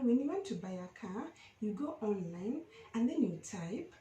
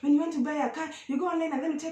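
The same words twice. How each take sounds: First: The sentence is spoken slowly. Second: The sentence is spoken quickly. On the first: Listeners lean in and follow what is said. The speaker calls it right. "if you're speaking slowly" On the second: Listeners struggle to catch what was said. The speaker calls it wrong. "as opposed to when you're just talking fast"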